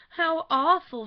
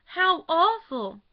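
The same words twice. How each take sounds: First: Loud high wail of dismay; groaning dismay. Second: Slow, loud, high moaning cry; drawn-out groaning wail. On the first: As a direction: wail it as she collapses in a chair. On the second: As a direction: stretch it out into a groan of horror. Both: A narrator's reading. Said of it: "dropped groaning into a vacant armchair".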